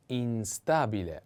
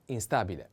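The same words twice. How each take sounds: First: "instabile" drawn out in separate syllables; slow model pronunciation. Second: Said in the usual way. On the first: Shown as a demonstration. Teacher models the next word for learners, slow "instabile". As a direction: stretch out "instabile" slowly.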